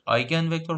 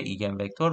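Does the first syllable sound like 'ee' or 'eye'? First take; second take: eye; ee. First: The first syllable sounds like 'eye'. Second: The first syllable sounds like 'ee'. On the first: The speaker calls it right. "تلفظ درستش" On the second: The speaker calls it wrong. "فارسیلایز همون فارسی طورش"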